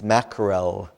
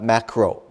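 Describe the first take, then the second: First: The word ends with a clear L sound. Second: The word ends in a vowel, with no L. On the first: The speaker calls it right. "with an L at the end" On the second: The speaker calls it wrong. "not macro"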